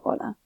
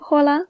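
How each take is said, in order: First: The word starts directly with the vowel. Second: The word starts with an audible h sound. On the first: The speaker calls it right. "we pronounce it hola" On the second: The speaker calls it wrong. "We do not pronounce it hola"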